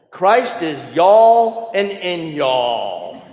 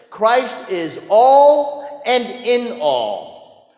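First: Slow, drawn-out Southern accent on "y'all"; Southern drawl. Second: Said in the usual way. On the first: Shown as a demonstration. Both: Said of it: "I'll do my best Southern drawl".

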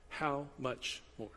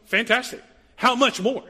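First: Slow and softer "How much more?"; soft reflective. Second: Higher and louder ringing question; "How much more?" called out loud and high; emphatic exclaim. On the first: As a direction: let "How much more?" settle quietly and slowly. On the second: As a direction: proclaim "How much more?" with a lift and punch. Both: Shown as a demonstration. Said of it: "this is the phrase".

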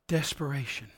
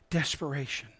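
First: Hushed key word. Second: Softer, low repeat of "Desperation."; "Desperation." repeated, barely above a murmur; hushed echo. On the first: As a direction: let "Desperation." fall heavy and quiet. Sermon pause on key word. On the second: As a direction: breathe "Desperation." again, quieter still. Repeated for weight. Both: Acted.

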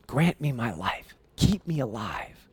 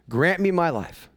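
First: Soft pleading. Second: Said in the usual way. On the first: Acted. Esther pleading with the king.

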